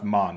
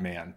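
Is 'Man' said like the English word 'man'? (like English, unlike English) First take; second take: unlike English; like English. First: The vowel differs from the English word man. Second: It sounds like the ordinary English word man. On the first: The speaker calls it right. "It's pronounced Man" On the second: The speaker calls it wrong. "not man"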